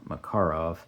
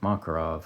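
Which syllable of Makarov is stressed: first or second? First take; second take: second; first. First: The stress is on the second syllable. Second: The stress is on the first syllable. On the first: "it's correct to accent the second syllable" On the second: "if you say Makarov, I'm not going to blame you"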